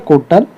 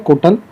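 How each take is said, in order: The two takes are said the same way.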